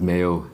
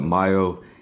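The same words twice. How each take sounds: First: Mayo is said with an English-style pronunciation. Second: Mayo is said with a Korean-style pronunciation. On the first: This is the usual way elsewhere. "instead of mayo" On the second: This is how people in Korea say it. "In Korea, they call it mayo"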